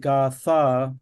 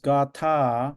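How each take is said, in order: First: The middle consonant is a th sound. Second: The middle consonant is an aspirated t. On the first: This is the anglicized pronunciation. "but we say Gatha, th, which is fine because it's English" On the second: This is the original Sanskrit pronunciation. "Sanskrit is Gatha, aspirated ta"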